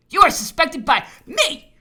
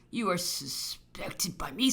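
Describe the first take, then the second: First: High, loud, angry accusation; furious accusation. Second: Slow, restrained accusation; measured accusation. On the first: Governor telling the officer he is suspected, loudly furious. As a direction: hurl the suspicion at full voice. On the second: Governor telling the officer he is suspected, slow and restrained. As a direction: state the suspicion slowly, held back. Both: Acted.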